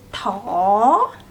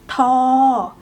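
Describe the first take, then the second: First: The tone rises. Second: The tone stays level.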